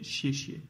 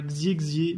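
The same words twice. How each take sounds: First: « chier chier » avec un X chuinté comme ch; bonne prononciation. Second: « xier xier » lu à la française avec un X en gz; mauvaise prononciation. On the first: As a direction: dire « chier chier » avec un ch doux. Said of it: "mais chier chier". (« chier chier » correct, X comme ch) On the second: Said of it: "c'est pas xier xier". (« xier xier » mal prononcé, X en gz) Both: Shown as a demonstration.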